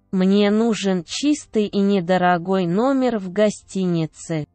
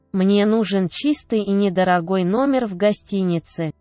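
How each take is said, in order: Both takes have the same delivery.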